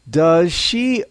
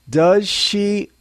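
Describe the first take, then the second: The two takes are said the same way.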